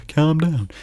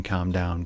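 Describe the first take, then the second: First: Loud, higher, patronizing "Calm down"; dismissive calm down. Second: Said in the usual way. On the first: Retold or imitated. Mocking someone who tells an angry person to calm down, loudly and patronizingly. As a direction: snap "Calm down" the way nobody wants to hear it. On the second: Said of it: "without saying".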